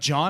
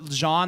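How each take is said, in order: First: The name is said to sound like John. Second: The name is said as Jean, not John. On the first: Someone else misheard the name. The speaker calls it wrong. "and they're like" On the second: This is the name as its owner says it. The speaker calls it right. "no, Jean, like as in J E A N"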